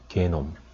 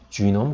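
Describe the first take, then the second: First: The word begins with a hard g sound. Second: The word begins with a j sound. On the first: The speaker calls it wrong. "뭐 게놈이라고 읽기도 해요" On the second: The speaker calls it right. "지놈이라는 게 더 정확한 어, 영어 발음인데 미형식 영어 발음인데"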